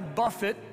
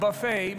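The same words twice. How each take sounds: First: The word ends with a short 'it' sound. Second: The word ends with a long 'ay' sound. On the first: It means to strike or beat. The speaker calls it right. "it says I buffet" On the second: It means a self-service meal. The speaker calls it wrong. "not buffet"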